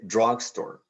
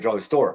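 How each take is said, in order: First: The stress is on the first syllable. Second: The stress is on the second syllable. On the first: The speaker calls it right. "we say drugstore" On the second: The speaker calls it wrong. "We don't say drugstore"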